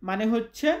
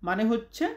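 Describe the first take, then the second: The two takes are said the same way.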